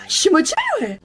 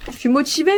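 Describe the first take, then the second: First: High, exaggerated squeal of enthusiasm; hyped-up motivation. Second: Said in the usual way. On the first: Student psyching herself up to revise, hammed-up excitement. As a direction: cheer yourself on in a high voice.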